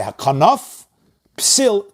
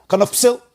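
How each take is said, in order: First: "hakanaf psil" with a clear break between; hakanaf, pause, slow higher psil; little pause. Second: "Hakanaf psil" high and quick, as one word; run together. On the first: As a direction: stop after hakanaf, then say psil. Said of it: "A little pause". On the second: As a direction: merge Hakanaf psil with no gap. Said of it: "It ends with a fei". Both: Shown as a demonstration.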